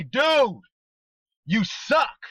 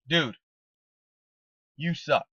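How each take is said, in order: First: "Dude, you suck" pitched high and louder, rising on "suck"; high mock jab. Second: Said in the usual way. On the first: Shown as a demonstration. Coach showing the team a joking tone, high and playful. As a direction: lift "Dude" high and swing "suck" up, teasing. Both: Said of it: "See, that's two different things".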